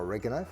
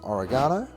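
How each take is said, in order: First: It is said in an American pronunciation. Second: It is said in a non-American pronunciation.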